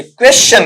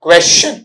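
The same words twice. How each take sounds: First: Teacher contrasting a wrong क्वेश्चन; wrong version. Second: क्वेश्चन short with a light rise; teacher giving the right क्वेश्चन after the wrong one; right version. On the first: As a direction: stretch क्वेश्चन as the version to avoid. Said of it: "ये क्वेश्चन नहीं". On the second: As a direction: say क्वेश्चन briefly, rising. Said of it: "नहीं". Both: Shown as a demonstration.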